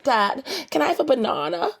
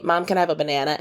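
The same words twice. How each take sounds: First: High-pitched Australian "banana", as "ba-NAH-na"; put-on Australian child voice, higher; child's Australian accent. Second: Banana said the American way, "ba-NAN-a"; plain American accent, asking mom; child's American accent. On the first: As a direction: imitate a little girl asking in an Australian accent. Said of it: "And she'll be like". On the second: Retold or imitated. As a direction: imitate a daughter asking in American English. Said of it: "she's learning to speak our, like, vernacular".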